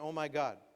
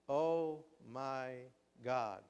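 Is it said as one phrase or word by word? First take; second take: one phrase; word by word. First: The words run together without any pauses. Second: There is a pause after every word. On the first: The feeling is ordinary. "Instead of saying" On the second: The feeling is much more intense. "period means a pause"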